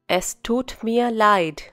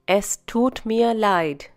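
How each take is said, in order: Both takes have the same delivery.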